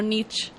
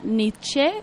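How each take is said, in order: First: The name ends without a final vowel. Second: The name ends with a final e vowel. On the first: The speaker calls it wrong. "y no Nietzsche" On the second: The speaker calls it right. "con la E al final"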